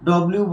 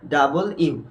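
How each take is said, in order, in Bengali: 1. নামটি ছোট করে, চেপে বলা হয়। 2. নামটি পূর্ণভাবে, দুই ভাগে বলা হয়। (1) "ডব্লিউ বলি" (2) "সঠিক উচ্চারণ"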